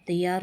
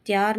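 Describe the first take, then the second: First: तैयार in two syllables, tai-yaar; correct pronunciation. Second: त्यार squeezed into one syllable, tyaar; wrong pronunciation. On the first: Teacher correcting the word, तैयार as tai-yaar. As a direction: give तैयार its ai before the y. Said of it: "होता है". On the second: Teacher showing the error, त्यार as one syllable. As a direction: run t and y together in त्यार. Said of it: "नहीं होता". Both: Shown as a demonstration.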